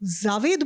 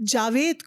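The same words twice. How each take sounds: First: The name begins with a z sound. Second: The name begins with a j sound.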